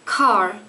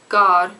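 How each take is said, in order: First: The first consonant has a puff of air. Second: The first consonant has no puff of air. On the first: "the first sound is not aspirated as in English, because you say car" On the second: "and we say gar, gar, no aspiration"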